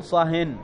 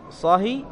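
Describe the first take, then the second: First: صهن with a nunated kasra; with tanween. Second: صهي with a bare kasra ending; without tanween. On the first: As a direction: say صهن ending in -in. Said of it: "ويجوز أن تقول". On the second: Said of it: "فيجوز أن تقول". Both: Shown as a demonstration.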